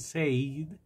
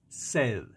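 First: The vowel is a long 'ay' sound. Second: The vowel is a short 'e' sound. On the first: The speaker calls it wrong. "muchos pronuncian said" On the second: The speaker calls it right. "pero es said. Sed, como cuando usted tiene sed"

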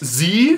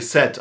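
First: The letter is said the American way, zee. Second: The letter is said the British way, zed.

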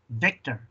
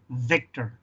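The two takes are said the same way.

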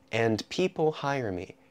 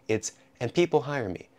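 First: It is slow with every sound said fully. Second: It is fast with sounds reduced and linked. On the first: "So if you're speaking slowly" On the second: "as soon as I start speaking quickly"

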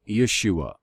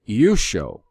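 First: The name ends with an 'ah' sound. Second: The name ends with an 'oh' sound. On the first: The speaker calls it wrong. "I do not pronounce the Redeemer's name Yeshua" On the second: The speaker calls it right. "I pronounce it Yusho"

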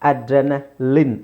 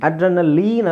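First: The last syllable has a short 'i' sound. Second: The last syllable has a long 'ee' sound. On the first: The speaker calls it right. "ಲಿನ್" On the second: The speaker calls it wrong. "ಅಡ್ರೆನಲೀನ್ ಅಲ್ಲ"

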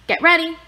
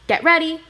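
Both takes have the same delivery.

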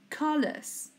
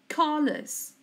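No difference in how they are said.

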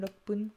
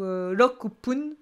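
First: 'roku' shrinks to 'rop' before 'pun'. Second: The full syllable 'roku' comes before 'pun'. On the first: The speaker calls it right. "Ce sera ... lokpun" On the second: The speaker calls it wrong. "On peut pas dire ... lokupun"

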